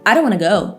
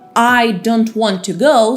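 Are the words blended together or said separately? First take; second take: blended; separately. First: The words run together into one blur. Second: Each word is said clearly and separately.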